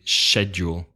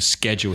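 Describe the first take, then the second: First: It is said with a British pronunciation. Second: It is said with an American pronunciation. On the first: The speaker calls it right. "pronouncing correctly" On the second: The speaker calls it wrong. "not saying"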